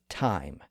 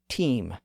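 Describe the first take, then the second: First: The vowel is an 'eye' sound. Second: The vowel is a long 'ee' sound. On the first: This is the modern pronunciation. "but to us" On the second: This is the older, medieval pronunciation. "to Geoffrey Chaucer"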